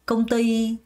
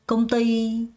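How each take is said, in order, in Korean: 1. 두 번째 음절에 강세가 있고, 첫 음절은 약해요. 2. 두 번째 음절에 강세가 있고, 첫 음절은 약해요.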